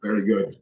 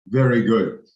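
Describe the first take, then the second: First: Said in the usual way. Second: Put-on louder Birmingham accent with a falling end; hammed-up Birmingham accent; mock Birmingham accent. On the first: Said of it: "It's a terrible accent". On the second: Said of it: "Sorry to any from Birmingham".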